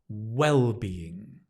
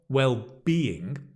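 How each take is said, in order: First: The stress is on the first syllable. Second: The stress is on the second syllable. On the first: The speaker calls it right. "Notice the stress is on the first syllable" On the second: The speaker calls it wrong. "not well-being, mm-mm-mm"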